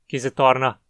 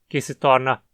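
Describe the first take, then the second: No difference in how they are said.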